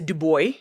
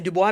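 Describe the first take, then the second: First: The name is said with an American pronunciation. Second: The name is said with a French pronunciation. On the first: "Americans would say" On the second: "that's how we say it in French"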